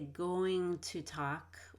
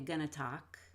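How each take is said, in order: First: Both words of 'going to' are said in full. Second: The words of 'going to' are reduced together. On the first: "I could say going to talk" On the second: "or I could say gonna talk, Depends on how fast you want to say that"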